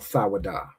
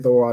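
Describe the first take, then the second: First: The word is said in a more careful form. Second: The word is said in its usual casual form. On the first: The speaker calls it right. "if you want to pronounce it properly, it'd be more thawada" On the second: The speaker calls it wrong. "I say thawada all the time"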